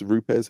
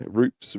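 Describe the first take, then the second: First: Rupes said in two syllables, "roo-pez"; other pronunciation. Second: Rupes said as one syllable, "roops"; one pronunciation. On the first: Brand name tried again in two syllables, "roo-pez". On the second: Brand name tried first as a single syllable "roops". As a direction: say Rupes short, rhyming with loops. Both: Shown as a demonstration. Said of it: "however you wanna say it".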